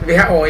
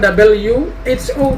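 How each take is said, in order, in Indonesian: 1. Hurufnya dibaca dengan nama Indonesia. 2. Hurufnya dibaca dengan nama Inggris. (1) "singkatan itu tetap dilafalkan dalam bahasa Indonesia" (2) "bukan W H O"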